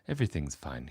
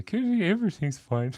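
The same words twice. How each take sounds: First: Said in the usual way. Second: High-pitched, hammed-up Canadian accent; mock Canadian accent. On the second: Shown as a demonstration. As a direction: put on a silly Canadian accent, laughing. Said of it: "That's my Canadian accent".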